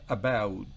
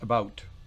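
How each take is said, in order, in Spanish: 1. Se dice con acento australiano. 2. Se dice con acento estadounidense. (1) "en Australia about" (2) "En inglés de Estados Unidos es about"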